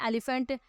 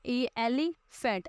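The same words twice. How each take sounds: First: Said in the usual way. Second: elephant slowly broken up as ए, ली, फेंट; slow classroom breakdown of elephant; syllable by syllable. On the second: Shown as a demonstration. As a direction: sound out elephant with gaps between parts. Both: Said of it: "हमारे आगे तीन spelling".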